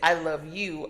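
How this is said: The stress is on "you".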